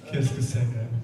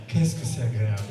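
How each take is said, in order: Both takes have the same delivery.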